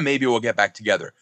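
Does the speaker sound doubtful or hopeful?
doubtful. It sounds doubtful and pessimistic. The speaker expects it probably won't happen. "Two totally different sentences"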